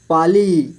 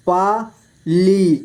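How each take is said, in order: First: Said in the usual way. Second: Pali split slowly into पा, ली; syllable by syllable. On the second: Shown as a demonstration. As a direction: stretch and separate पा and ली in पाली. (पाली को तोड़कर धीरे: पा, ली) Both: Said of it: "इस तरह से आपको".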